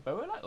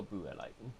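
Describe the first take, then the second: First: Buolite with "boh" first, as BOH-uh-lite; first syllable "boh". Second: Buolite with "boo" first, as BOO-uh-lite; first syllable "boo". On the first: Player puzzling over a name, Buolite said "BOH-uh-lite". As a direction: say the start of Buolite like "bow" in rainbow. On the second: Player trying the other reading, Buolite said "BOO-uh-lite". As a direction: say the start of Buolite like a ghost's "boo". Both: Shown as a demonstration. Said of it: "Is it Buolite or Buolite?".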